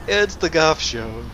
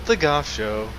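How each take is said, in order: First: Slow, drawn-out showman intro; announcer voice. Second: Said in the usual way. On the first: Pretend. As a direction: introduce it like a TV host. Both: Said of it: "I don't know where I was going with that".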